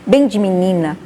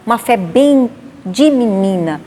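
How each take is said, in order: First: Said in the usual way. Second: Uma fé bem de menina, slowed and leaned on, falling; slow emphatic repeat of bem de menina; slower emphasis. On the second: Real, not acted. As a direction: drag out bem de menina to stress it.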